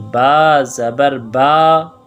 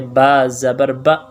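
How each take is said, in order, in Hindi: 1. अंतिम स्वर थोड़ा लंबा खींचा गया है। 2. अंतिम स्वर बहुत छोटा करके बोला गया है। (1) "आधे अलिफ के बक़दर" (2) "ज़बर ये भी नहीं करना चाहिए"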